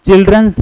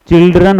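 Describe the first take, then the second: First: "चिल्ड्रंस" with an added final s; wrong plural. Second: "चिल्ड्रन" with no s at the end; correct plural. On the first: Teacher warning dear friends of the mistake, "चिल्ड्रंस" with final s. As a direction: say "चिल्ड्रंस", sounding the s after the n. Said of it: "प्यारे दोस्तों नहीं होता". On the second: Teacher correcting the word for students, "चिल्ड्रन" without final s. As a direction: say "चिल्ड्रन", ending cleanly on n. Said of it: "चिल्ड्रन होता है". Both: Shown as a demonstration.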